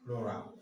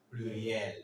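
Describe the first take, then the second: First: Said in the usual way. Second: Pluriel said the French way, ending "-yel"; French Pluriel, stress on the last syllable; French pronunciation. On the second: Shown as a demonstration. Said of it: "French people say".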